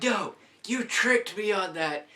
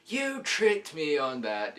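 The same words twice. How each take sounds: First: High, loud protest at the ride operator; outraged protest. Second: Slower, loud and still high, hammering it home; slow outraged repeat. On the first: Kid yelling at the operator who tricked him, loud and high. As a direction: yell like you were just tricked. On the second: Kid repeating the accusation to the operator, slow and loud. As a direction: drag it out like an accusation. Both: Retold or imitated. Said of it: "I'm like".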